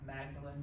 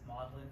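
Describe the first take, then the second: First: The name is sounded out as it is written. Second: The name is said the way locals say it. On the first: The speaker calls it wrong. "it looks like Magdalen" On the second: The speaker calls it right. "but they pronounce it Magdalen"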